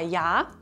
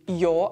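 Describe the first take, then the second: First: The vowel is an open 'a' sound. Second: The vowel is an 'o' sound. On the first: This is the standard form. "Zum Beispiel auch bei ja" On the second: This is the Austrian dialect form. "das wir wie jo aussprechen"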